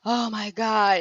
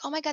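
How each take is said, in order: First: It sounds dismayed and overwhelmed. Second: It sounds happy and excited.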